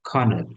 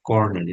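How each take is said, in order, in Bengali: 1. শব্দটি মহাপ্রাণ kh ধ্বনি দিয়ে শুরু হয়। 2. শব্দটি সাধারণ k ধ্বনি দিয়ে শুরু হয়। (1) "উচ্চারণটা একটু ভিন্ন, খ" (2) "আমরা উচ্চারণটা কর্নেল সবাই বলে"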